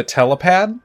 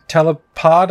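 First: "telepad" with a flat "pad" vowel, like pad; slip to telepad. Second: "telepod" with a clear "pod" vowel; corrected to telepod. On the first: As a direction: says "telepad", ending in "pad" instead of "pod". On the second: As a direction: fixes it to "telepod", ending in "pod". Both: Real, not acted. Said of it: "I keep saying pad".

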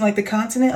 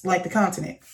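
First: LIKE THE CONTINENT as a question, rising at the end; retold query, "continent" rising. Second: LIKE THE CONTINENT falling, lower and softer; retold answer, "continent" dropping at the end; confirming answer. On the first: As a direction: ask "like the continent" with a lift. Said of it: "he gets it out". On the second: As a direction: state "like the continent" with a closing fall. She confirms his question.

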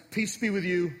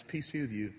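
First: Curt, impatient greeting; wrong tone. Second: Soft, gentle greeting; appropriate tone. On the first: Pastor demoing the wrong tone of Jesus, impatient. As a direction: say it like an annoyed boss. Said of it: "might read this passage like this". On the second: Pastor demoing Jesus gently greeting his disciples, tender. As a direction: say it tenderly, like a friend returning. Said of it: "reread it with the appropriate tone". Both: Shown as a demonstration.

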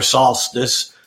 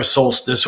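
First: "solstice" with an open first vowel, SAHL-stiss; open-vowel pronunciation. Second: "solstice" with a long O, SOLE-stiss; long-O pronunciation. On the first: Astrologer offering the other way to say it, "solstice" as SAHL-stiss. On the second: Astrologer offering both ways to say it, "solstice" with long O. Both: Shown as a demonstration. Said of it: "It depends on how you say it".

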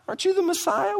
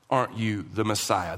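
First: Very high-pitched mocking question; sarcastic. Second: Low, quiet, falling line; statement of faith. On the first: Criminal mocking the Messiah beside him, with high-pitched sarcasm. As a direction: jeer it in a squeaky-high rising voice. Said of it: "This is sarcasm". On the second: Believer addressing the Messiah, in quiet faith. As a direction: say it simply, as if believing it. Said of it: "This isn't a statement of faith". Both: Shown as a demonstration.

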